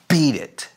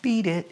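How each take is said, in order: First: The consonants are crisp and sharply spat out. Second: The consonants are soft and barely pronounced. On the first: The speaker calls it right. "It's beat it" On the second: The speaker calls it wrong. "it's not beat it"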